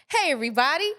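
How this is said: It is said in an excited tone.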